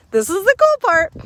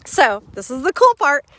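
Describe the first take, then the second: First: Higher, louder, cool lifted up; pitched-up excited hook for viewers; excited repeat. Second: Said in the usual way. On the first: Shown as a demonstration. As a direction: sell the teaser with a bright lift.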